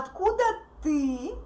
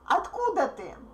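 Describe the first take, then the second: First: The stress falls on the word ты. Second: The stress falls on the word откуда. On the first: The question is turned back to the other person. "stress is on the word ты" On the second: The focus is on where the person is from. "she makes a word откуда stressed"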